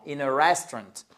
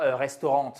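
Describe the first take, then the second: First: "restaurant" said the English way, stressed on the first syllable; English pronunciation. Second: "restaurant" said the French way, with a nasal last syllable; French-style pronunciation. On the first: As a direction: hit the start of "restaurant" and shorten the rest. (« restaurant » à l'anglaise, accentué au début) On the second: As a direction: pronounce "restaurant" as in French, all syllables sounded. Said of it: "et pas a restaurant". (« restaurant » prononcé à la française) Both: Shown as a demonstration.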